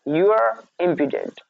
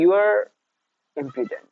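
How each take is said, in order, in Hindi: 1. शब्द बिना रुके एक साथ बोले जाते हैं। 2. शब्दों के बीच विराम है। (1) "एक साथ बोलना है" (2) "वहां पे आपको रुकना नहीं है। ऐसा नहीं कर दिया आपने कि"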